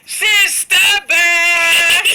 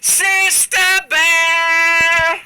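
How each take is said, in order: First: It is called at the loudest volume. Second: It is called louder than before.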